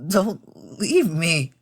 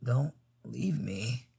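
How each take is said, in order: First: Higher, slow, desperate begging; tearful plea. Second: Very soft, slow pleading; weak plea. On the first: Crying rider to Tom, tearful plea. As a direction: beg slowly, on the edge of tears. Tears starts to form. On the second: Fallen rider to Tom, faint plea. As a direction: barely breathe out the plea. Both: Acted.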